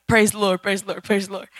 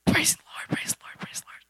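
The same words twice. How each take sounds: First: Wholehearted praise. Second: Whispered, fading away to nothing; half-hearted whisper. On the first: Teen showing how she should have praised, wholeheartedly. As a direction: say it like you mean it. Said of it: "I should have been like". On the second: Teen showing her half-hearted worship, whispered and fading. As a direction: mumble it without any heart. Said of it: "But it wasn't like". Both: Shown as a demonstration.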